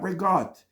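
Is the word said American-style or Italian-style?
American. The word is said in a clipped Americanized way. The speaker calls it wrong.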